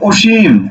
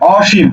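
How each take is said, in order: First: The first vowel is a closed 'o' sound. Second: The first vowel is an open 'aw' sound. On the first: The speaker calls it wrong. "তুমি কিন্তু এটাকে বলতে পারবে না" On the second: The speaker calls it right. "এই যে অ, অ, অসীম"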